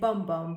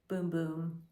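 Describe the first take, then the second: First: The vowel is short, as in 'bum'. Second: The vowel is long, as in 'boom'. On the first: The speaker calls it wrong. "I'd say Bum Bum, but no" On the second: The speaker calls it right. "it's actually pronounced as a Boom Boom"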